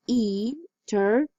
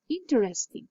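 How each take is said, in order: First: "Interesting" broken into four separate syllables. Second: Said in the usual way. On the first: Shown as a demonstration. Teacher counting syllables in "Interesting" for students, syllable by syllable. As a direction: say "Interesting" slowly, a pause after each syllable. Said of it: "each word slowly, you can hear the syllables". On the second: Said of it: "When you say the word normally".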